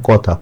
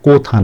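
First: "কথা" with open "aw" in ক; correct open vowel. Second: "কোথা" with a long "oh"; rejected o-vowel. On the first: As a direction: say "কথা" as kaw-tha. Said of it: "এই জন্য এখানে কথা". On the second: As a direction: say "কোথা" as koh-tha, the wrong form. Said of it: "কোথা না". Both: Shown as a demonstration.

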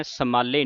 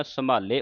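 First: ਸੰਭਾਲੇ as "samalle"; wrong doubled l. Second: ਸੰਭਾਲੇ as "samaale", light l; halant sound. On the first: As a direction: lean on a long l in ਸੰਭਾਲੇ. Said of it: "ਸੰਭਾਲੇ ਨਹੀਂ ਕਹਿਣਾ". (ਸੰਭਾਲੇ ਨੂੰ ਅੱਧਕ ਨਾਲ "ਸਮਾੱਲੇ") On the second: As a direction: keep the l of ਸੰਭਾਲੇ undoubled. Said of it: "ਹਲੰਤ ਲੱਗੀ ਥੱਲੇ". (ਸੰਭਾਲੇ ਨੂੰ "ਸਮਾਲੇ", ਲੱਲਾ ਹਲਕਾ) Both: Shown as a demonstration.

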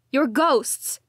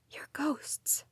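First: Cried out. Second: Soft low whisper. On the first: Daughter crying out at her ghost parents. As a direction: shout the accusation. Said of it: "I cried". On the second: Daughter whispering to her ghost parents. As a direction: repeat it in a hush. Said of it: "I repeated in a low whisper". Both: A narrator's reading.

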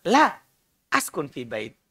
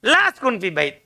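First: "la" set apart, then "askun fi bait" much lower and softer; pause after la. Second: "La askun fi bait" said in one unbroken phrase; one phrase, no pause. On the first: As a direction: say "la" alone, pause, then drop low and soft for "askun fi bait". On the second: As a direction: keep "La askun fi bait" together as a single negation. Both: Shown as a demonstration. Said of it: "beda kan nadanya itu".

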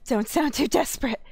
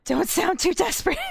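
First: Said in the usual way. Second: "Don't sound too desperate" pitched well up, teasing; high mocking reread; teasing higher voice. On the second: Shown as a demonstration. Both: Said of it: "repeated in a new voice".

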